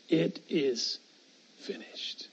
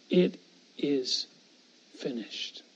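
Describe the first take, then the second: First: A breathy whisper fading out. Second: Low, soft and hushed, as if dying; hushed last words. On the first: Preacher echoing Jesus's dying words to the congregation, whispered. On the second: Preacher voicing Jesus's final words on the cross, low and hushed. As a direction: let the words sink low and quiet. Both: Acted.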